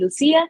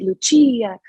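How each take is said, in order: First: The name is pronounced the Spanish way. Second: The name is pronounced the Italian way. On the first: "Spanish people or South Americans and Latinos who pronounce it" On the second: "especially Italians, pronouncing it"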